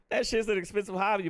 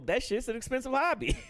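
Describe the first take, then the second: First: Said in the usual way. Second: Laughing. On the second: Real, not acted. Joking about smoking costs.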